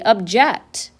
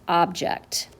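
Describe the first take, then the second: First: The stress is on the second syllable. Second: The stress is on the first syllable. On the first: It means to disagree with or oppose something. "We could say it differently. ... That would be a verb" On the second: It names a thing that is not alive. "Something that is not alive. That would be a noun"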